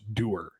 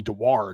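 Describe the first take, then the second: First: No W sound is heard in the middle. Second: A clear W sound is heard in the middle. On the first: The speaker calls it right. "apparently it's pronounced Dewar" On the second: The speaker calls it wrong. "I've been calling him Dewar because there is a W in there"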